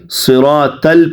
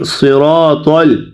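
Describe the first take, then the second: First: صراط ال with a thin dental t, 'sira-tal'; wrong soft ta. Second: صراط ال with a thick, dark emphatic t, 'sirotol'; correct heavy ta. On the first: Teacher imitates students' mistake, thin t in صراط ال. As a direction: lighten the t of صراط ال into a plain ta. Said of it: "اسے تا پڑھتے ہیں". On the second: Teacher models the right letter for students, heavy t in صراط ال. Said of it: "یہاں پہ اکثر ساتھی غلط پڑھتے ہیں". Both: Shown as a demonstration.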